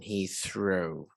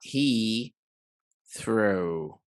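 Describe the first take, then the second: First: The two words run together with no break. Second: There is a small break between the words. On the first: The speaker calls it right. "like there is absolutely great fusion" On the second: The speaker calls it wrong. "not he threw"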